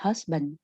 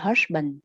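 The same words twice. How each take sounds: First: The middle consonant is a light, crisp s. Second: The middle consonant sounds heavier, like sh. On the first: The speaker calls it right. "mà husband" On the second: The speaker calls it wrong. "không phải là hush, không phải là husband"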